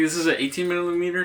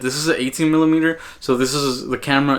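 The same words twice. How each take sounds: First: Thin, roomy audio from the camera's built-in mic; in-camera mic sound. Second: Closer, fuller audio from a small mic on the camera; camera-mounted shotgun mic. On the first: Filmmaker shows beginners the built-in camera mic, roomy and distant. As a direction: sound as if caught by the camera's mic across the room. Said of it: "this is how the in-camera audio sounds".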